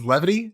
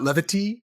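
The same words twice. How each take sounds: First: The word is said plainly without extra emphasis. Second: The word is drawn out with heavy emphasis. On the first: The speaker calls it right. "I think it's levity" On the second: The speaker calls it wrong. "not levity. I think you're putting too much emphasis"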